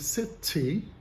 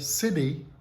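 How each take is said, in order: First: The t is a full, crisp t sound. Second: The t is a quick tap, like a d. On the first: This is the more likely British pronunciation. "pronunciar a categoria true T e dizer city, que seria mais provável no inglês da Inglaterra" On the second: This is the usual American pronunciation. "o norte-americano muito provavelmente diria city"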